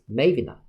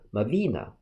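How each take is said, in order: First: The stress is on the first syllable. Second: The stress is on the second syllable. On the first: This is the less popular pronunciation. "the other's stress syllable is in the first one" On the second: This is the more popular pronunciation. "The more popular one's stress is in the second syllable"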